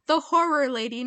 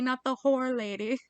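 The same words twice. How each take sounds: First: "horror" with both syllables clearly sounded; horror, not whore. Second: "whore" as a single clipped syllable, set against "horror"; whore, one syllable. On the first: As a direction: stress the two-syllable "horror" in "The horror lady". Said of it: "so I am saying horror". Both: Shown as a demonstration.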